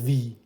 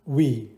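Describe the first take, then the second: First: It begins with a v sound, teeth on lip. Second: It begins with a w sound, lips rounded. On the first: The speaker calls it wrong. "نمیگیم وی" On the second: The speaker calls it right. "میگیم چی؟"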